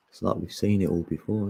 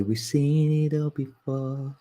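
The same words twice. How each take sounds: First: Said in the usual way. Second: Higher, slow knowing line; drawn-out been-there voice; mock wise voice. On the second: Shown as a demonstration. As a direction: say it like a weary old-timer. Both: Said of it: "Then you can say".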